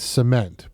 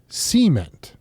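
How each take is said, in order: First: The stress is on the second syllable. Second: The stress is on the first syllable.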